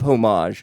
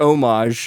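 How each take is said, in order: First: The word begins with an h sound. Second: The word begins without an h sound.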